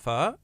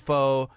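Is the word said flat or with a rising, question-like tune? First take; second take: rising; flat. First: The word rises in pitch like a question. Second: The word is said flat, without a rise. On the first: "you say it like a question" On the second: "a lot of people say pho"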